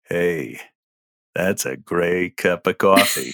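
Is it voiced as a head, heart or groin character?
groin. It is voiced as a groin-centered character.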